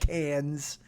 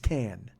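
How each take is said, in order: First: The word ends with an audible S sound. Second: The word ends without any S sound. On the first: The speaker calls it wrong. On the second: The speaker calls it right.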